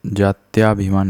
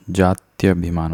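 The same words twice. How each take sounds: First: जात्याभिमान said as "jaatyaabhimaan"; long vowel after y in जात्याभिमान; wrong long aa. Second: जात्यभिमान said as "jaatyabhimaan"; short vowel after y in जात्यभिमान; correct short a. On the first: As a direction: lengthen the "tyaa" in जात्याभिमान. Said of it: "नहीं होता". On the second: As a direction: keep the "tya" short in जात्यभिमान. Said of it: "होता है". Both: Shown as a demonstration.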